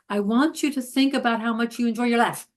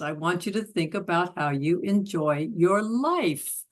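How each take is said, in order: First: It runs on without any pause. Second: It has a pause before the key word.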